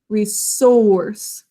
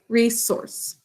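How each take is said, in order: First: The second syllable's vowel is drawn out slowly. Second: The second syllable's vowel is said at normal length. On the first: It shows how the word is spelled. "To drag it out like that makes it say that O sound" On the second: It is how people say it in everyday talk. "In everyday conversation, though, we say resource"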